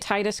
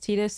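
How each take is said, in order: First: The name is said in an Americanized way. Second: The name is said in a Japanese way. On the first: The speaker calls it wrong. "technically what I think an Americanized pronunciation would be" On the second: The speaker calls it right. "I do believe the Japanese pronunciation is Tidus"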